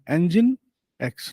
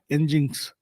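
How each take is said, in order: First: It is said as 'engine' followed by 'ex'. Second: It is said as 'engines', ending in 'z'. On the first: The speaker calls it right. "It should be pronounced as engine" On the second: The speaker calls it wrong. "not engines"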